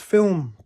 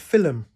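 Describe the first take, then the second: First: The word is said with a standard pronunciation. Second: The word is said with a Scottish pronunciation. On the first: The speaker calls it right. "pronounce film properly" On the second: The speaker calls it wrong. "I said film because my mum's Scottish accent"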